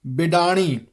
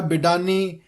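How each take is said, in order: First: ਬਿਡਾਣੀ with a curled-back ṇ; retroflex n. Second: ਬਿਡਾਨੀ with a plain n; tongue at the teeth for the n in ਬਿਡਾਨੀ; dental n. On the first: Teacher modelling ਬਿਡਾਣੀ with retroflex n. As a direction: curl the tongue back for ਣ in ਬਿਡਾਣੀ. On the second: Teacher showing the mistake, ਬਿਡਾਨੀ with plain n. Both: Shown as a demonstration. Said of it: "ਨੰਨੇ ਦਾ ਉਚਾਰਨ ਨਾ ਹੋਵੇ".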